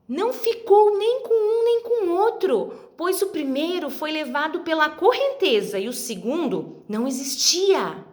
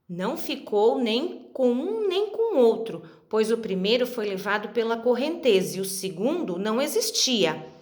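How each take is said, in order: First: It is read in a very enthusiastic tone. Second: It is read in a very serious tone.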